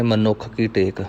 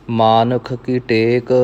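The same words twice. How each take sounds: First: ਮਨੁੱਖ as ma-nukkh, short a; short first vowel. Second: ਮਾਨੁਖ as maa-nukh, long first vowel. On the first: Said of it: "ਕਈ ਗੁਰਮੁਖ ਪਾਠ ਕਰਦੇ ਨੇ". (ਮਨੁੱਖ ਵਿੱਚ ਮੰਮਾ ਮੁਕਤਾ) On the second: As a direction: lengthen the first syllable of ਮਾਨੁਖ. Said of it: "ਉਹ ਮੰਮੇ ਨੂੰ ਕਰਨਾ ਹੈ". (ਮਾਨੁਖ ਵਿੱਚ ਮੰਮੇ ਨੂੰ ਕੰਨਾ) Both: Shown as a demonstration.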